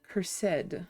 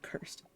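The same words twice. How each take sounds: First: The word is said with two syllables. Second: The word is said with one syllable. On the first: It makes the item sound fancier. The speaker calls it right. "The extra syllable makes stuff seem fancier" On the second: It is the plain, ordinary word. The speaker calls it wrong. "not cursed"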